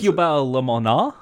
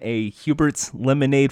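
First: It is said in a put-on French accent. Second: It is said in a plain English accent.

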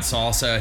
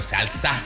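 First: It is said with a plain American accent. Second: It is said with a Spanish accent. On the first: "it's not salsa" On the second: "he'll go salsa"

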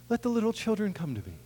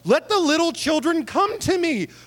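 First: It is said gently and warmly. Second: It is said indignantly and sharply.

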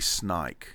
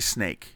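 First: The vowel shifts toward a long I sound. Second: The vowel is a plain long A sound.

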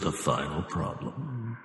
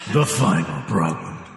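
First: It is said in a plain, ordinary voice. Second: It is said in a dramatic movie-trailer voice.

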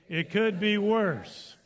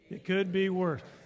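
First: It is said with strong passion. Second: It is said plainly and calmly.

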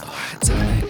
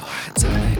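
First: It is whispered softly, ASMR style. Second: It is whispered softly, ASMR style.

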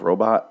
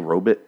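First: It uses the usual modern pronunciation. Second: It uses an old-fashioned 1950s-style pronunciation.

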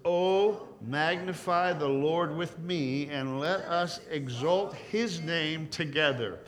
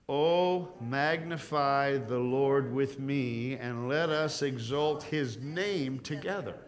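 First: The verse is read louder and more forcefully. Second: The verse is read firmly but less forcefully. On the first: "just a little bit stronger" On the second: "read this with me good and strong"

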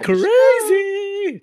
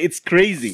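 First: It is said in a put-on high voice. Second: It is said in his normal voice.

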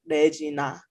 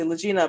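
First: The name is said with Korean pronunciation. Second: The name is said with English pronunciation. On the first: "but in Korea it would be like Regina" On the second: "I would say Legina"

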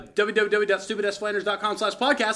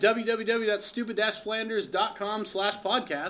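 First: It is said fast. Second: It is said at a normal speed.

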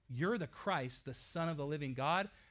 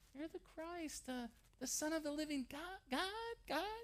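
First: It is said confidently, without hesitation. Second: It is said hesitantly, with stumbling repetitions.

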